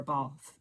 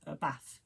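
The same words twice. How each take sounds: First: "bath" with a long southern "ah"; southern pronunciation. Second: "bath" with a short northern "a"; Sheffield pronunciation. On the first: Shown as a demonstration. Telling of old manager's bath, southern pronunciation. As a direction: say "bath" as "bahth". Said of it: "down south". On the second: Retold or imitated. Imitating old manager from Sheffield, northern pronunciation. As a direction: say "bath" to rhyme with "math", Sheffield style. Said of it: "my old manager is from Sheffield".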